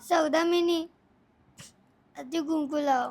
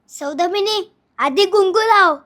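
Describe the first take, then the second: First: It is said while crying. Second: It is said in an angry tone.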